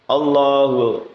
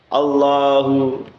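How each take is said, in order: Both takes have the same delivery.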